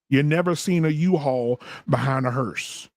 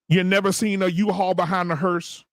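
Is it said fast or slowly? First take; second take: slowly; fast. First: It is said slowly. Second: It is said fast.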